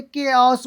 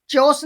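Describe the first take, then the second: First: केओस said with a hard k, keh-os; the right way, केओस starting with k; correct pronunciation. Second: चेओस said with a ch sound, cheh-os; the wrong way, चेओस starting with ch; wrong pronunciation. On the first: Teacher giving students the right form, केओस with k. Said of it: "क्या बोलेंगे". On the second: Teacher showing students the mistake, चेओस with ch. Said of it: "चेओस नहीं बोलेंगे". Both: Shown as a demonstration.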